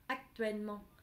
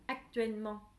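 The two takes are said the same way.

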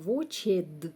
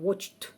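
First: The ending is said as a separate extra syllable. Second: The ending is a single consonant, no extra syllable. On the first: The speaker calls it wrong. "не вимовляється не «watched»" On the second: The speaker calls it right. "а «watched». Вимовляється просто «д»"

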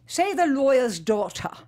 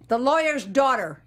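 First: It is said in the teacher's British-style accent. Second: It is said with a Chicago American accent.

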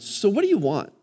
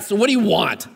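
First: It is asked in a sincere, open tone. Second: It is asked with a confrontational, annoyed attitude.

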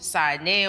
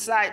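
First: It is pronounced with Sesotho sounds. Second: It is pronounced with English sounds.

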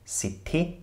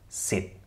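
First: An extra vowel follows the final t. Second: The word ends cleanly on the t sound. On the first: The speaker calls it wrong. "Also nicht sitte" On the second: The speaker calls it right. "sondern sit"

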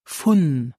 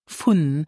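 The two takes are said the same way.

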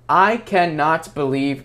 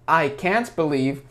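First: The verb is said in full as cannot. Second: The verb is contracted to can't. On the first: The speaker calls it wrong. "Никто так не говорит" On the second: The speaker calls it right. "Скорее мы говорим I can't"

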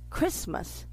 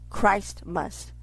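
First: It is said as the usual single word Christmas. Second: It is said as the two words Christ must. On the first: The speaker calls it wrong. "But the America pronounce it Christmas" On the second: The speaker calls it right. "It's really pronounced Christ must"

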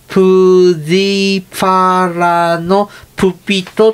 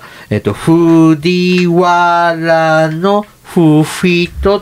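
First: The name begins with a p sound. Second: The name begins with an f sound. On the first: This is the name as said in the Nara period. "奈良時代の時の藤原のフフィストはプジパラのプピトって言ってて" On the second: This is the name as said in the Heian period. "平安時代になると"

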